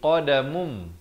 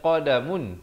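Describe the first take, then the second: First: The word ends with an m sound. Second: The word ends with an n sound. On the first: The nasal changes because a b follows. "ditukarkan kepada bunyi mim" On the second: This is the underlying form before the change. "asalnya qadamun"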